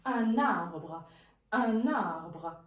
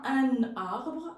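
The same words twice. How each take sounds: First: Un arbre linked as un-narbre; liaison with N. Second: Un arbre said with no N linking into arbre; un arbre cut apart with no liaison; wrong, no liaison. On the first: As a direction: carry the N of Un into arbre. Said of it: "c'est comme s'il y a un N". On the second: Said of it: "on ne prononce pas un arbre". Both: Shown as a demonstration.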